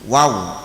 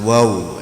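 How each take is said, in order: First: The vowel is an open 'a' sound. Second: The vowel is a rounded 'o' sound. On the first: The speaker calls it right. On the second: The speaker calls it wrong.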